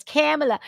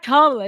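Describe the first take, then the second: First: Kamala offered as the corrected pronunciation. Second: Kamala said KAH-muh-luh, as the wrong version; mispronounced Kamala. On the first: Commentator mimicking a name correction, corrected pronunciation of Kamala. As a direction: say "Kamala" as the corrector insists it goes. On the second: Commentator mimicking a name correction, rejected pronunciation of Kamala. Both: Retold or imitated. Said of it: "correcting Nick when he says Kamala wrong".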